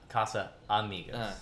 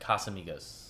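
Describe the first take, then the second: First: It is said as two separate words. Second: It is said as one joined word. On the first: The speaker calls it wrong. "Not Casa Amigos" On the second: The speaker calls it right. "It's actually one word"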